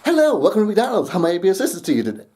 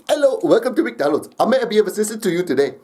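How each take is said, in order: First: It is said in a usual, unaccented voice. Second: It is said in an imitated Indian accent. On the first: "the McDonald's experience" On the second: "did a Indian accent"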